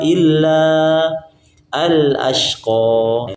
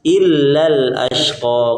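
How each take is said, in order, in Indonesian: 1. Huruf panjang tetap dipertahankan sebelum al- yang terpisah. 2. Katanya menyambung dan huruf panjangnya hilang. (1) "Kalau diwaqaf" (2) "Kalau diwasul"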